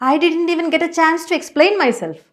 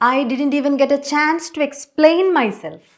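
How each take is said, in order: First: It is said in an upset, dramatic way. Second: It is said in a calm, neutral way.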